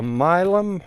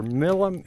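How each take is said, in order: First: Milam said MY-lum, long i; Milam pronunciation. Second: Milam said MILL-um, short i; Milam pronunciation. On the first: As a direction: Milam with first syllable like my. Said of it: "Milam or Milam". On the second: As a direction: Milam with first syllable like mill. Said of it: "a Milam or". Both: Shown as a demonstration.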